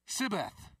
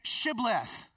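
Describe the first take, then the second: First: The word begins with a plain s sound. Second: The word begins with a sh sound.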